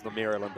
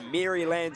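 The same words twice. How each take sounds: First: "Maryland" with a reduced ending, Mera-lund; corrected Maryland. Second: "Maryland" said as Mary-land, with a full "land"; New Zealand-accented Maryland. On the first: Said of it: "apologies, that's my terrible New Zealand accent". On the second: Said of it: "that's my terrible New Zealand accent". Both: Real, not acted.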